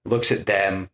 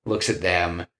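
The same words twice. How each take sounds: The two takes are said the same way.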